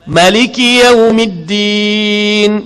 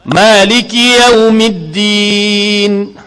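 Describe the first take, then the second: First: The first vowel of Maliki is kept short. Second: The first vowel of Maliki is held long. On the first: "bil qasri, tanpa mat" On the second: "Ma, mat asli"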